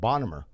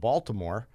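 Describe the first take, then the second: First: It is said in the local Maryland pronunciation. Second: It is said in a non-Maryland pronunciation. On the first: "Over there, they pronounce it Bonnemer" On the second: "here we pronounce it Baltimore"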